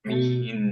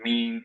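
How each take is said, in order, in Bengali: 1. শেষের n স্পষ্ট, জিভ উপরে উঠে বন্ধ করে। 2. শেষের n দুর্বল, জিভ বন্ধ হয় না। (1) "মিন এরকম কথা হবে" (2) "মিন এরকম হয়ে যাচ্ছে, টাংটা টাচ করছে না"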